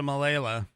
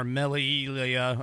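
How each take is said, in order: First: "Malala" said as muh-LAY-luh; tentative pronunciation. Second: "Melilla" slowly sounded out, Spanish-style; alternative pronunciation. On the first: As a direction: say "Malala" with a stressed LAY in the middle. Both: Shown as a demonstration. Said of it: "I don't know how it's pronounced".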